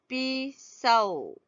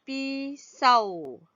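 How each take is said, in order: The two takes are said the same way.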